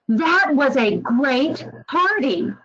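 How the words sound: It is said with genuine, lively enthusiasm. The party really was great. The speaker calls it right. "It really conveyed how great the party actually actually was"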